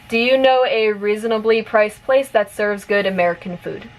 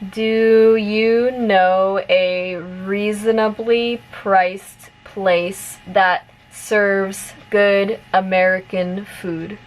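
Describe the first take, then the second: First: The sentence is spoken at normal, fast pace. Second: The sentence is spoken at a medium pace. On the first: "one more time at normal speed" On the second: "a little bit faster this time"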